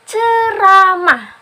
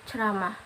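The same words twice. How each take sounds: First: Every vowel in the word is pronounced clearly. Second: The vowels in the word are slurred and unclear. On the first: The speaker calls it right. "A, I, U, E, O itu harus jelas" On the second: The speaker calls it wrong. "jangan sampai uh, audiens kita mendengar uh, seperti"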